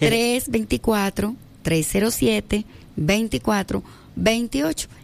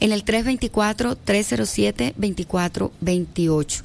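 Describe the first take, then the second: First: The number is said slowly. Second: The number is said quickly.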